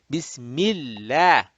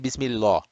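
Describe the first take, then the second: First: The L is thin and flat, not rounded. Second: The L is heavy and rounded, not flat. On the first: The speaker calls it right. "then the Lamul Jalala will be flat" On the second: The speaker calls it wrong. "We don't say Bismillah"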